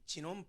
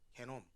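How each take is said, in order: First: The word begins with a j sound. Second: The word begins with a hard g sound. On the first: This is the English pronunciation. "영어 발음으로 하면" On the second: This is the German pronunciation. "독일어 발음으로 하면"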